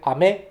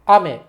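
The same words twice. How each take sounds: First: It has the pitch pattern of the word candy. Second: It has the pitch pattern of the word rain. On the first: The word means candy. "that means candy" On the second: The word means rain. "that means rain"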